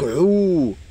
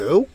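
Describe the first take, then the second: First: The vowel is held twice as long. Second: The vowel is short. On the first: "avec le waw, il devient fois deux" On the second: "Ça c'est O"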